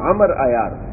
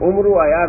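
First: The name's first vowel is an 'a' sound. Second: The name's first vowel is not an 'a' sound. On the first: The speaker calls it right. "عمر عین کے اوپر زبر ہوتا ہے" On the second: The speaker calls it wrong. "تو عمر عیار نہیں ہوتا"

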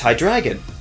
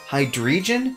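First: The middle syllable sounds like 'dry'. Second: The middle syllable does not sound like 'dry'. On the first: The speaker calls it right. "It's a combination of Hydra, Dry, and Dragon, so it's Hydreigon" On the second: The speaker calls it wrong. "calling it Hydreigon is especially bad"

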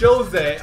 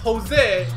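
First: It begins with an English J sound. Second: It begins without a J sound, more like H. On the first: The speaker calls it wrong. "not Jose" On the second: The speaker calls it right. "J-O-S-E is Jose"

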